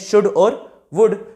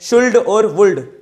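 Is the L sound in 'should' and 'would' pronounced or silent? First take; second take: silent; pronounced. First: The L sound is silent in both words. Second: The L sound is pronounced in both words. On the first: The speaker calls it right. "एल जो है silent होता है" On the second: The speaker calls it wrong. "क्या मैंने सही पढ़ा है?"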